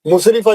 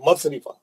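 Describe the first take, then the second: First: The first vowel is a rounded 'u' sound. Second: The first vowel is an open 'a' sound. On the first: The speaker calls it wrong. "मुसरिफा नहीं है" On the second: The speaker calls it right. "है मसरिफा"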